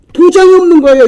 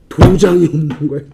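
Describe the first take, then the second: First: High, loud repeat of the reveal; emphatic exclamation. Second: Lower-pitched, held-back disclosure; low reveal. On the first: Preacher hammering home the missing seal, loud exclamation. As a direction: raise pitch and volume in disbelief. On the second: Preacher revealing the unsealed will, low and held back. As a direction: drop the voice on the revelation. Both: Real, not acted.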